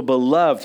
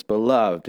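First: Beloved called out louder. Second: Beloved said softer and gentler. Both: Retold or imitated. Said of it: "he says".

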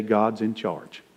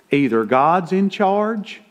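First: A soft, slow mock of the believer's claim; mock pious quote. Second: Either God's in charge, slow, higher and punched; emphatic. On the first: Preacher mimicking a two-faced believer, soft and slow. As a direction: quote it small and slow, half-hearted. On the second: Real, not acted. Preacher pressing the congregation, slow and emphatic. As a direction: lean hard on "in charge", slowed down.

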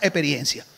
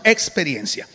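First: Dominican pronunciation, dropping the x to "eperiencia"; "experiencia" with its first consonants swallowed, Dominican style; Dominican accent. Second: Said in the usual way. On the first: Shown as a demonstration. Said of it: "Si fuéramos dominicanos, diríamos experiencia". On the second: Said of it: "Ok, pero decimos experiencia".

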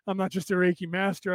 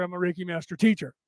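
First: Said in the usual way. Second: The word "teacher" carries the weight, falling at the end; stress on teacher. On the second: Real, not acted. Streamer correcting viewers on her full title, stressing "teacher".

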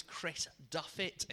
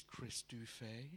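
First: Said in the usual way. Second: DUFFET said the French way, "doo-FAY"; mock-posh Duffet, ending in "ay" with a silent T; posh pronunciation. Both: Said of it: "It's very posh".

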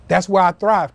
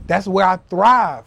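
First: Said in the usual way. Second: Slow, weighted delivery, each word of "That's where I thrive" leaned on; slow emphatic. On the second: Shown as a demonstration. Telling viewers how he works, slow emphatic. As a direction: drive "thrive" home slowly. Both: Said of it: "repeated for emphasis".

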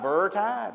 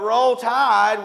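First: "Burr Tide" with a B where the R of Roll should be; toddler's mispronunciation. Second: Said in the usual way. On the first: Retold or imitated. Father retelling his baby daughter's first words, a toddler's "Burr Tide". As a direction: lightly echo a little girl's "Burr Tide". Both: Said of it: "That's how she said it".

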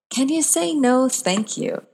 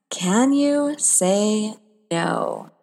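First: Playful, bright challenge; higher, brighter question. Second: A slow, weighty question; slow and drawn out. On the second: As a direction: stretch every word, very slow. Asks the title question, drawn out. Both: Acted.

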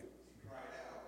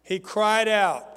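First: Breathy near-whisper, unvoiced; timid reply the preacher wants louder; barely audible. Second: Slow, much louder, each word driven home; preacher showing how loud to answer. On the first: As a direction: say it almost under your breath. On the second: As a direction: belt it out as an example to the room. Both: Shown as a demonstration. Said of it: "Speak up a little louder".

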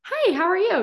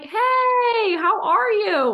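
First: Hey, how are you? with a high, louder lift; high plain greeting; a bright high ask. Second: Hey, how are you? in a much higher, louder voice; extra lifted greeting; even higher greeting. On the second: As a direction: push it up higher and brighter. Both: Shown as a demonstration. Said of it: "change the inflection in your voice from".

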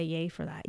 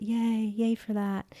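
First: Said in the usual way. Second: Mock cheer. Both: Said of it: "I'm just gonna say yay for that".

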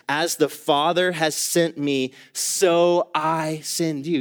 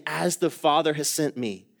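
First: Slow, weighty reading of Jesus' words; slow emphatic quote. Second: Said in the usual way. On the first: Shown as a demonstration. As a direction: lean on "Father" and draw out "so I send you". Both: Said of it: "He starts off saying".

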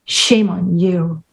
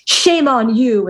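First: Slow, low mock scolding; retold woman's retort. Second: Slow, drawn-out mock scolding; retold man's rebuke. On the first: Woman turning his scolding back on him, low slow mock retort. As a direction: throw the rebuke back, lower and drawn out. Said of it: "And she says". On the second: Man scolding the woman in a famous movie line, slow mock rebuke. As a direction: imitate a movie scolding, stretching the words. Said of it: "the famous where he says".

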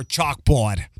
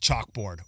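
First: "chalkboard" with a Boston accent, no R. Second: Said in the usual way. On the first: Shown as a demonstration. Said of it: "the Boston accent". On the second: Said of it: "the Boston accent is nails on a".

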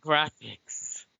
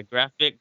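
First: "graphics" with the s added; "graphics" repeated with a clear final s; corrected word. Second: "graphic" said without the final s; "graphic" clipped short, no s on the end; wrong word. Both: Real, not acted.

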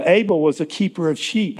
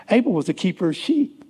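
First: Said in the usual way. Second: "Abel was a keeper of sheep" in a high, lifted pitch; added emphasis. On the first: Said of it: "the emphasis". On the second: Shown as a demonstration. Preacher adding his own emphasis on "Abel was a keeper of sheep", pitched high. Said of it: "Now, this is my, the emphasis".

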